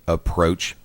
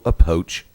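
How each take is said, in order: First: The R sound after the P is pronounced. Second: The R sound after the P is dropped. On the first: The speaker calls it right. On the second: The speaker calls it wrong.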